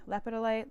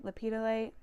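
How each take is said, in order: First: "lepidolite" as LEP-uh-duh-lite; first-syllable stress. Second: "lepidolite" as luh-PID-uh-lite, pitched higher; second-syllable stress. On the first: Naming the bee's mineral, "lepidolite" said as LEP-uh-duh-lite. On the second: Trying the bee's mineral name another way, "lepidolite" as luh-PID-uh-lite. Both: Real, not acted. Tries two pronunciations of mineral.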